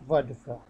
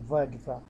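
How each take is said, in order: The two takes are said the same way.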